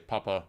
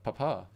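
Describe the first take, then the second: First: It is said with a German pronunciation. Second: It is said with an English pronunciation. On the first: "like that is German, you can tell" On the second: "that's that's something else"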